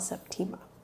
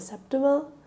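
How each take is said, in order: First: It is said like the start of September. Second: It is not said like the start of September. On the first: This is how the speaker first read the name. "Like September, but Tima" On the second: This is how many others say the name. "a lot of people are calling it Septima lately"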